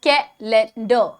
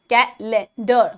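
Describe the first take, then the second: No difference in how they are said.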